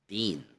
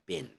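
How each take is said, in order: First: The word has a long ee vowel. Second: The word has a short i vowel. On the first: The speaker calls it right. "it's pronounced as bean" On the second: The speaker calls it wrong. "instead of a short I"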